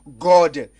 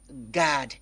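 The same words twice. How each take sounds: First: The vowel is said as a rounded 'o'. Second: The vowel is said as an open 'a'. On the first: The speaker calls it wrong. "On ne va pas dire God" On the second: The speaker calls it right. "mais on dit plutôt God"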